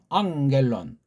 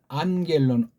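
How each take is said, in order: First: The middle is said with an ng sound. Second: The middle is said with an n sound. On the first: "어떤 사람은 앙겔론" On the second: "어떤 사람은 안겔론"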